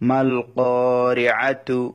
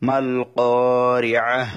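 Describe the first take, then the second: First: The word ends with a full t syllable. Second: The word ends with a final h sound. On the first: Reading continues without stopping here. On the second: Reading stops at this word.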